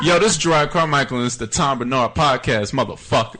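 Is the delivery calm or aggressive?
aggressive. It is said in a loud, aggressive way.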